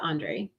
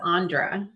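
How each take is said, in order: First: The name ends with an 'ay' vowel. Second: The name ends with an 'ah' vowel. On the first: The speaker calls it right. "instead of Andre" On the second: The speaker calls it wrong. "I read it as Andra"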